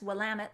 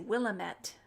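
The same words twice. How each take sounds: First: The word ends rhyming with 'damn it'. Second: The word does not end rhyming with 'damn it'. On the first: The speaker calls it right. "that's Willamette like, damn it" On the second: The speaker calls it wrong. "I used to say Willamette"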